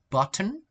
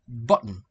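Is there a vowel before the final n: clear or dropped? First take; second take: clear; dropped. First: A clear vowel is heard before the final n. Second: The final n forms the syllable without a vowel. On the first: "careful speech" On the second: "natural speech"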